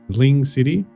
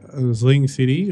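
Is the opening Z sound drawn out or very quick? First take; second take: very quick; drawn out. First: The opening Z sound is very small and quick. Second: The opening Z sound is not clipped short. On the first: The speaker calls it right. "It's just a really small, really quick Z" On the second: The speaker calls it wrong. "I can't pronounce it right"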